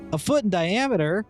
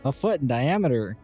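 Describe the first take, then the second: First: It is said lively, sounding surprised. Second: It is said flat, with no surprise. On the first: The size is striking. "let me say it" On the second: The size seems unremarkable. "in a very monotone and unsurprised voice"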